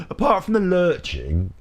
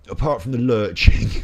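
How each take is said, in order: First: High and slow. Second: Said in the usual way. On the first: Shown as a demonstration.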